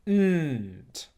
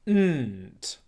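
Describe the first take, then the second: First: The N sound is held long through the nose. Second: The N sound is held long through the nose.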